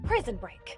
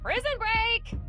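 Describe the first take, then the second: First: It is said in a serious tone. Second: It is said in an excited tone.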